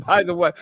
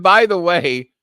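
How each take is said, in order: First: Excited retelling. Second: Louder repeat of by the way; eager repeat of by the way; excited retelling. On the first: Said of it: "so I said". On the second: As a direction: restart the quote with more energy. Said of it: "I said". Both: Retold or imitated.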